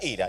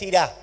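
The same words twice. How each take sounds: First: The stress is on the first syllable. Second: The stress is on the last syllable. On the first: It means anger. The speaker calls it right. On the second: It means will go. The speaker calls it wrong.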